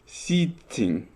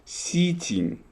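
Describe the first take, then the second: First: The middle T sound is held long. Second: The same.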